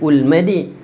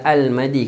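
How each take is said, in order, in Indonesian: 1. Kata itu diawali dengan vokal u. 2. Kata itu diawali dengan vokal a. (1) "Kenapa tak il-madi, ul-madi?" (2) "Kenapa saya letak al-madi?"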